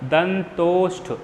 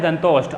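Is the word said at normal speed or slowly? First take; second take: slowly; normal. First: The word is said slowly, drawn out. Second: The word is said at a normal speed.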